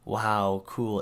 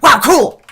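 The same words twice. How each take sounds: First: It is said at a slow, ordinary pace. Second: It is said very quickly in one burst. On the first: The sarcasm is too obvious. The speaker calls it wrong. "it's too subtle, it's too obvious" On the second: It brushes the person off without obvious sarcasm. The speaker calls it right. "say it really fast ... Just listen to it"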